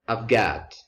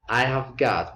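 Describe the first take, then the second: First: The word have is reduced to a v sound. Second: The word have is said as a full syllable. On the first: "becomes I've got" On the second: "I have got uh, can be contracted"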